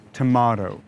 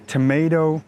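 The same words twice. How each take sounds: First: Tomato with an open 'ah' in the middle, 'tuh-MAH-toh'; 'ah' vowel. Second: Tomato with an 'ay' sound in the middle, 'tuh-MAY-toh'; 'ay' vowel. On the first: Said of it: "I simply use this ah sound". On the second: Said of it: "this ah sound instead of the a sound". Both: Shown as a demonstration.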